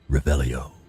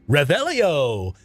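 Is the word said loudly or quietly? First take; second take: quietly; loudly. First: The word is said quietly and held back. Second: The word is tossed out loudly and casually. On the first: The spell is cast while hiding. "when you're in stealth, he's like Revelio" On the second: The spell is cast openly. "normally he's like Revelio and just kind of throws it out there"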